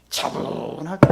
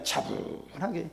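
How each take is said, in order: First: Calm. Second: 차분하게 said very softly and slowly; slow the word 차분하게 right down and drop the volume; calm. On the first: Preacher showing how a calm prayer sounds, hushed. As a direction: show the calm by hushing the word 차분하게. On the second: Preacher showing the calm prayer after peace comes, soft and slow. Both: Shown as a demonstration.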